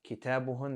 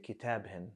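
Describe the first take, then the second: First: The pronoun ending is said with a u vowel. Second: The pronoun ending is said with an i vowel. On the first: This is the original, more common form. "Instead of saying" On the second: Some groups of speakers say it this way. "They might pronounce it with a kasra"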